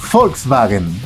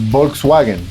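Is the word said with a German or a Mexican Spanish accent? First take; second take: German; Mexican Spanish. First: It is said with a German pronunciation. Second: It is said with a Mexican Spanish pronunciation.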